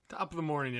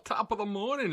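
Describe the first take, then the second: First: It is said in the speaker's normal accent. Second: It is said in a put-on Irish accent.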